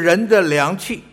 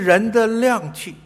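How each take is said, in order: First: 量 is said with a non-falling tone. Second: 量 is said with a falling tone, like 亮. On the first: The speaker calls it wrong. "我看你们大多数都是这么念的" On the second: The speaker calls it right. "另外还有一种念法呢"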